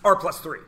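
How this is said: It is said smoothly as one joined unit. The whole expression is one grouped quantity. The speaker calls it right. "This is all one thing"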